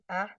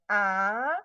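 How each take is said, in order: First: The vowel is held short. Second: The vowel is held long. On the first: "satu harokat, satu bunyi" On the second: "bunyi panjangnya"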